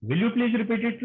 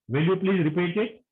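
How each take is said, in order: First: "please" pressed flat like an order; demanding, no rise at the end; commanding. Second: Gentle, polite rise on "it"; polite request. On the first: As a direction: make the request sound like a threat. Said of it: "it's like a command". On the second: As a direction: ask it as a real request. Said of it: "a request should sound like a request". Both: Shown as a demonstration.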